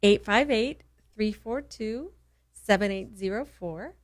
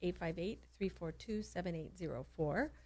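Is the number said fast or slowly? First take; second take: slowly; fast. First: The number is said more slowly. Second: The number is said at normal speed.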